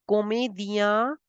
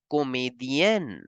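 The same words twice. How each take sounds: First: Comédien ending in a nasal vowel; masculine form. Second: Comédienne with a clear n at the end; feminine form. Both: Shown as a demonstration. Teacher contrasts male and female comedian. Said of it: "female comedian as comédienne".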